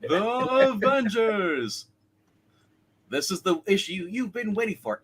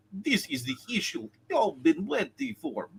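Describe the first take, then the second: First: Slow, drawn-out announcer voice; Ted Knight announcer. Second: Light impression of Eric Green; a hint of Eric Green's read. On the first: Acted. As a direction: stretch it like an old TV announcer. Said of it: "the Ted Knight kind of thing". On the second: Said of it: "if I was doing Eric Green".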